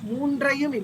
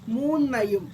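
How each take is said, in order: First: The middle has an 'ndr' consonant cluster. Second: The middle has a plain doubled 'n' sound. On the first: The speaker calls it wrong. "மூன்றையும் இல்ல" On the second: The speaker calls it right.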